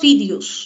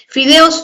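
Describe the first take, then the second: First: The last vowels sound like i and u. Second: The last vowels sound like e and o.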